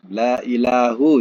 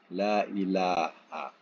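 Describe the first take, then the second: First: The second word ends with a 'u' vowel. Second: The second word ends with an 'a' vowel. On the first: Other gods might still exist besides God. The speaker calls it wrong. "kalau dibaca dengan baris depan" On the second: Every kind of god is denied except God. The speaker calls it right. "yang betulnya la ilaha"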